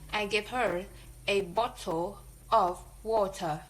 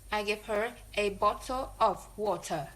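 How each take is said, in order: First: Her, a and of are said in strong forms. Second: Her, a and of are said in weak forms.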